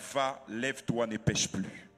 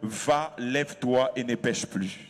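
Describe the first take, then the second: First: It is said at normal volume. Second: It is said loudly.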